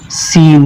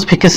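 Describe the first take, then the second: First: The c is silent, no k sound. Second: The c is pronounced as a k sound. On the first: The speaker calls it right. "इसको पढ़ेंगे सीन" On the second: The speaker calls it wrong. "इसको स्केंस नहीं पढ़ेंगे"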